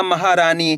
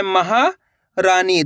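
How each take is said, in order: First: Said in the usual way. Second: महारानी broken as महा, pause, Rani; split in chunks. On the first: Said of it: "तो मिलके बन जाएगा". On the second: Shown as a demonstration. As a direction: pause midway through महारानी. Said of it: "दो-दो करके ही पढ़". (महारानी, महा के बाद रुककर)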